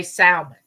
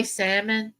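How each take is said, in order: First: "salmon" with the L sounded, sal-mun; country "salmon" with the L. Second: Said in the usual way. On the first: Retold or imitated. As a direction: say "salmon" with a clear L like the old folks. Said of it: "would say salmon". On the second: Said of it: "I say salmon".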